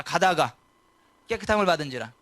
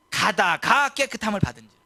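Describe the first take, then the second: First: 가다가 punched out loud for the congregation to repeat; call and repeat. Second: 가다가 stressed, loud, falling; verse read out. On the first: Preacher leading the church in repeating the verse, 가다가 stressed. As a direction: say 가다가 strong, then 깨끗함을 받은지라. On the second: Preacher reading the verse before the church repeats it, 가다가 stressed. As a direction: read 가다가 with weight, then 깨끗함을 받은지라. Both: Shown as a demonstration. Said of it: "따라서 합시다".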